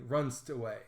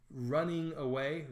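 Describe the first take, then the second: First: "runst" squeezed into one syllable, rʌnst; shortened word. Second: "running" said in full as two syllables, ru-nning, a little slow; full word. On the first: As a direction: clip "runst away" to a single quick syllable. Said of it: "running becomes one syllable, runst". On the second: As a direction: spell out "running away" with both syllables of running clear. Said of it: "So running becomes one syllable". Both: Shown as a demonstration.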